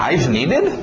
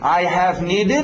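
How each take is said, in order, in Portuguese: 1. A palavra 'have' se contrai com 'I'. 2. A palavra 'have' é dita por inteiro.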